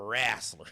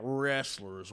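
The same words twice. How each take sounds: First: It is said in a thick Southern accent. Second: It is said in a standard accent. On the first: "You got to get that like real southern, more southern accent to it" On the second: "We're not wrestlers"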